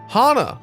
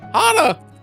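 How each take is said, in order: First: It is said in a normal, lower voice. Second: It is said in a much higher voice.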